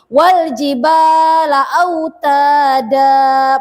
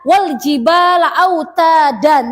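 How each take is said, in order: First: The final word ends with a long a vowel. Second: The final word ends with an n sound. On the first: The speaker calls it right. "tapi wal jibala autada, mat asli" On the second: The speaker calls it wrong. "Tidak boleh dibaca wal jibala autadan, tidak boleh"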